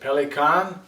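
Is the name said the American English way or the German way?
German. It is said with a German pronunciation. "in Germany they pronounce it Pelikan"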